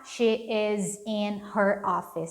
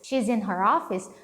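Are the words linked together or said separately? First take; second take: separated; linked. First: Each word is said separately, with breaks between. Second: The words run together in one connected stream. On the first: The speaker calls it wrong. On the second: The speaker calls it right.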